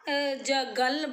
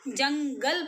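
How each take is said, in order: First: The first syllable has no nasal sound. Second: The first syllable has a nasal sound. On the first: The speaker calls it wrong. "अगर आप जगल बोलो, ... कोई बोला जाता है नहीं ना" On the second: The speaker calls it right. "जंगल बोला जाता है"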